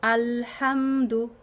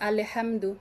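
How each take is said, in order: First: The L sound is held briefly before 'ham'. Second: The L sound is clipped with a bouncing release. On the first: The speaker calls it right. "লাম ক্লিয়ার করতে আপনার যতটুকু টাইম লাগে" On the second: The speaker calls it wrong. "এই ভুলটা আমরা খুব কমন করি"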